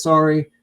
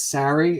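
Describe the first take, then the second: First: "sorry" with an "or" sound, like story; Canadian "sorry". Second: "sorry" with an open front vowel, like sari; American "sorry". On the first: Shown as a demonstration. Quoting how [name] says it, "sorry" said "sore-ee". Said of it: "He says". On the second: Acted. Imagined Americans correcting [name], "sorry" said "sah-ree". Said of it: "You don't see Americans being like".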